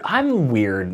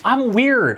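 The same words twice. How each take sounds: First: Said in the usual way. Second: "I'm weird" sung out high and bright with pride; first "I'm weird" pitched high and proud; proud declaration. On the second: Shown as a demonstration.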